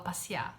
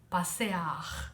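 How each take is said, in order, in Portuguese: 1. Alguns sons são reduzidos ou engolidos. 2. Cada vogal é pronunciada completa e com cuidado. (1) "você fala passear, se você é do Rio" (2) "você escreve passear"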